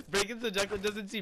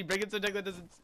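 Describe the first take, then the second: First: Laughing. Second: Chuckling while speaking; laughing through words. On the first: Laughing while talking. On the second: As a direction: say it mid-laugh. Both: Real, not acted.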